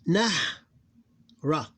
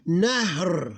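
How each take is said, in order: First: "Nah. Ra." as two separate syllables with a pause between. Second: "Nahr" as one syllable, no vowel after the r; drawn-out "Nahr", h and r run together; sukun ending. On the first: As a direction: break it into closed "Nah", then open "Ra". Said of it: "closed syllable, open syllable". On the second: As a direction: drop the last vowel and hold the r in "Nahr". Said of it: "read it as like if it have sukun". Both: Shown as a demonstration.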